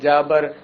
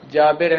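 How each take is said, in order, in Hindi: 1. दूसरा स्वर छोटा 'a' है। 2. दूसरा स्वर छोटा 'i' है। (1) "तो कहते हैं जाबर" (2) "जाबिर है"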